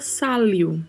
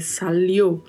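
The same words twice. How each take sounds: First: The stress falls before the final syllable. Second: The stress falls on the final syllable. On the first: The speaker calls it wrong. "Se não tivesse este acento, a pronúncia seria" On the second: The speaker calls it right. "o correto é"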